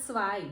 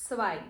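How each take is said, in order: The two takes are said the same way.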